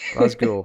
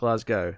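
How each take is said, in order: First: It is said with the local pronunciation. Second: It is said with an American pronunciation. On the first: The speaker calls it right. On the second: The speaker calls it wrong. "not Glasgow"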